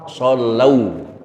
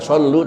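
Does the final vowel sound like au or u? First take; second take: au; u. First: The word ends in an au diphthong. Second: The word ends in a plain u vowel. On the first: The speaker calls it right. "Yang benar" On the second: The speaker calls it wrong. "bukan sallu"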